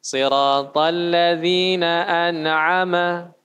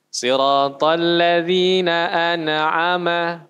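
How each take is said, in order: First: "an'ama" again with the bounced mim, slow chant; wrong bounced mim. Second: "an'ama" said with the mim bounced into an extra "ma", slow chant; wrong bounced mim. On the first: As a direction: repeat the bounced "an'ama" error. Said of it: "itu tidak boleh". ("an'ama" diulang dengan mim dipantulkan) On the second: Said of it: "Nah, itu sering". ("an'ama" dengan mim dipantulkan, bacaan yang salah) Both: Shown as a demonstration.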